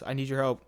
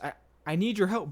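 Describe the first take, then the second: First: It is said directly, without hesitation. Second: It is said hesitantly, with stammering.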